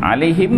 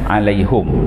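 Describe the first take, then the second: First: The vowel after the h is an i. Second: The vowel after the h is a u.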